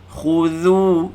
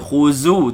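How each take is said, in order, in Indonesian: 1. Konsonan di tengah itu bunyi 'th', lidah dijulurkan. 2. Konsonan di tengah itu bunyi 'z' yang berdengung. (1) "Zal mesti keluar lidah" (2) "Mesti jangan baca khuzu tu zai"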